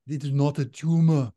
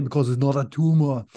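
First: A firmer go at the Austrian action-hero voice; better Arnold impression. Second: A clumsy, half-landed Austrian action-hero voice; bad Arnold impression. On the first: Redoing Arnold for cohost, a bolder impression. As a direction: commit to the Arnold Schwarzenegger voice this time. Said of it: "I need to do a better one". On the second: Podcaster tries Arnold for cohost, weak impression. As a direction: toss off a weak Arnold Schwarzenegger. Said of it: "my worst Arnold impersonation".

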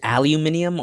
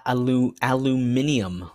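First: "aluminium" with a y glide, al-yoo-MIN-ee-um; "aluminium" as AL-you-MIN-ee-um; British pronunciation. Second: "aluminium" without the y glide, al-oo-MIN-ee-um; unsure "aluminium", al-loo-MIN-ee-um; alternative pronunciation. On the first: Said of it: "Oh, who knows?". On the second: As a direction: try "aluminium" with a plain LOO. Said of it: "Is it aluminium or". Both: Shown as a demonstration.

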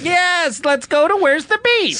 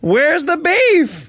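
First: High, slow put-on old woman; old lady voice. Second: Put-on high, very slow drawn-out old woman; slow old lady catchphrase. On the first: Old lady customer agreeing brightly, high put-on voice. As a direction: chirp back like a sweet old lady. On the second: Shown as a demonstration. Director demonstrating the catchphrase to the actor, high and drawn out. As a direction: stretch each word like a crotchety granny.

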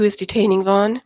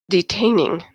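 First: Said in the usual way. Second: Mildly acidic one-word echo, falling; acid query. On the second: A narrator's reading. Daimon challenging Eva's choice of word, mildly acidic. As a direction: throw the word back with understated disdain. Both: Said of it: "Daimon asked acidly".

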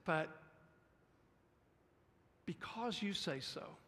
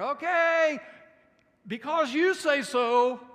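First: Said in the usual way. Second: Drawn-out, much louder sarcastic reluctance; slow it down and drip with sarcasm. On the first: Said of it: "notice he says". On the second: Acted. Preacher voicing Peter, sarcastic at Jesus' order. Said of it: "I try to hear a little sarcasm".

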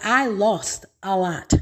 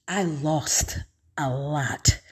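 First: Said in the usual way. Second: Slow, softer echo of "I lost a lot"; heavy-hearted murmur; quiet sorrow. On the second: Real, not acted. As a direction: let it sink, slow and soft. Repeat, sinks softer and slower.

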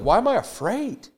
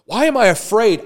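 First: Higher, wondering question; David asking himself why he is afraid. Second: Higher and louder, emphatic; David shouting down his own fear; David exclaiming. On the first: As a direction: ask it as if puzzled by the fear. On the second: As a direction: throw the question out boldly. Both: Retold or imitated. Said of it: "David's like".

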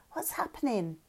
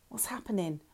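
First: Small frightened question, dropped much softer; a scared child asking, voice sinking softly; whimpering. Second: Much softer, small and frightened; a tiny frightened question, barely voiced; small scared voice. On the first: Madsen asks Lauren on the crashed boat, softly frightened. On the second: Madsen asks Lauren as the boat sinks, small and scared. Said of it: "Madsen's small, scared voice". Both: A narrator's reading.

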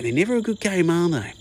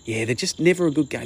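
First: Mock dad voice, pitched much higher, pressing never; hammed-up dad, much higher and insistent; imitating dad, higher. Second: A mild mock of dad dismissing the game, a touch higher; lightly voiced dad, stressing never; imitating dad. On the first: Son mocking dad's scorn for the game in a higher, hammed-up voice. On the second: Son imitating his dad's dismissive football argument, lightly voiced. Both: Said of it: "make the argument of".

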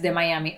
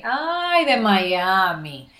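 First: Said in the usual way. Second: Mocking reaction. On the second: People in Mexico reacting to her Miami origin, mocking. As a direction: stretch it out in mock disdain.

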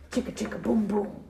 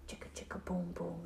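First: Said in the usual way. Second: Chanted, near-whispered, low and very soft; chanted, whisper the refrain secretively; hushed night-time chant. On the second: A narrator's reading. Night falls on the tree.

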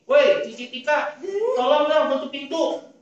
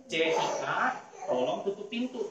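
First: Loud, high, bossy yell; high-toned, loud scolding. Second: Put-on a kindly put request to a child; good intonation, polite. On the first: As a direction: demonstrate a rude shouted order. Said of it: "nadanya tinggi, ngomongnya kenceng". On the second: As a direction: ask nicely, at an easy level. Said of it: "Kalau kita ngomongnya baik". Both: Shown as a demonstration.

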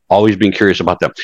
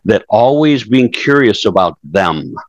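First: Said in the usual way. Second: Slow, weighted first take of always being curious; stressing the key advice slowly; slow emphasis. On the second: Shown as a demonstration. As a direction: lean on always, drawing the phrase out.

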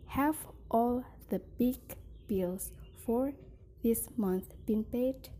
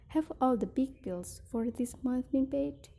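First: "have all the big" / "bills for" / "this month been paid?" with pauses; phrased in chunks. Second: "Have all the big bills for this month been paid?" in one breath; smooth single phrase. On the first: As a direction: break the question into three chunks. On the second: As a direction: run the whole question together. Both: Shown as a demonstration. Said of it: "phrasing and intonation".

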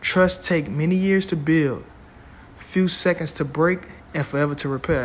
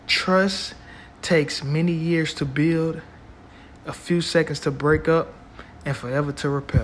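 First: Slow, emphatic repeat; slow and deliberate. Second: Slow quote, rising on trust; measured, weighty recitation; slow and deliberate. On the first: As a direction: stretch it out for weight. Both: Shown as a demonstration. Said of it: "I'm gonna say that again".

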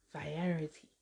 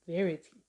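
First: "variety" said vuh-RYE-uh-tee, softly; soft, tentative "variety" with an eye vowel; unsure pronunciation. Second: "variety" said VAIR-ih-tee, without the eye vowel; tentative "variety", front-stressed like "verity"; unsure pronunciation. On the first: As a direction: try "variety" with stressed RYE, quietly. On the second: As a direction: try "variety" as three syllables, VAIR-ih-tee. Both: Real, not acted. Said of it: "I don't know how to say".

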